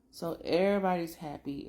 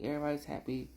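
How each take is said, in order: First: A touch brighter, everybody's happy said with a lift; upbeat recap line; cheerful announcement. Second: Said in the usual way. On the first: Shown as a demonstration. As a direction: announce the happy news gladly.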